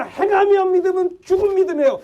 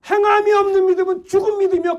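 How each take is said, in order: First: 행함이 hit high and loud, the rest falling; preacher's stress on 행함이; emphatic scripture quote. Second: 행함이 driven even higher and louder than the rest of the line; 행함이 hammered as the climax of the sermon; stronger emphatic repeat. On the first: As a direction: punch 행함이 at the start, then let the line fall. Preacher quoting James with force. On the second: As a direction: slam 행함이 at the top of the voice. Preacher repeats the verse louder. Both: Acted.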